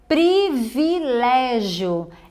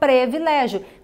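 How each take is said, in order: First: The first vowel is an I sound. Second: The first vowel is an E sound. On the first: The speaker calls it right. "O correto é privilégio" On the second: The speaker calls it wrong. "algumas pessoas trocam o I pelo E"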